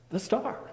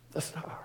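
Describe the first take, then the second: First: Alarmed. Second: Whispered. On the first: Loud alarmed repeat. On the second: Whispered realization of star gone. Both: A narrator's reading.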